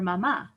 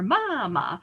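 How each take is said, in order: First: The stress is on the last syllable. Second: The stress is on the first syllable. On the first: The speaker calls it right. "stresses the last syllable" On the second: The speaker calls it wrong. "we should say actually canción or mama, but we don't"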